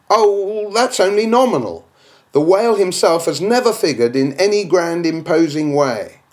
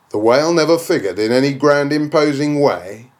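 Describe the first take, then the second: First: Higher, dismissive skeptic's voice; a scoffing imagined critic; objector's voice. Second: Said in the usual way. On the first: Acted. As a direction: brush it off as the doubter.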